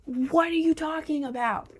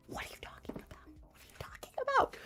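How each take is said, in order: First: Plain. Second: Breathy fast whisper of disbelief. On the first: Echoing the phrase in disbelief. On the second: Mocking the mom's question in a whisper. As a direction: whisper it to yourself, quick. Echoing the phrase, dropping to whisper. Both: Pretend.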